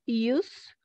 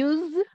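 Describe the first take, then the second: First: The final consonant is a voiceless s sound. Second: The final consonant is a voiced z sound. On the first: It is the noun meaning usage. "como uso" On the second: It is the verb meaning to employ.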